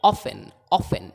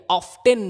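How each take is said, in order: First: Often with silent t, OFF-en; correct pronunciation. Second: Often with a clear t, OFF-ten; wrong pronunciation. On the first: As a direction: drop the t from often. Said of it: "टी silent है". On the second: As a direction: sound the t in often. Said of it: "नहीं है". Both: Shown as a demonstration.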